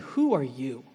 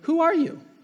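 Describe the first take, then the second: First: It is asked with scorn and contempt. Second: It is asked as a sincere question.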